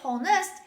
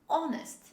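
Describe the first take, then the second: First: The word begins with an h sound. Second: The word begins directly with a vowel. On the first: The speaker calls it wrong. "Don't say honest, H is not pronounced" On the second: The speaker calls it right. "The letter H is dropped when we say this word"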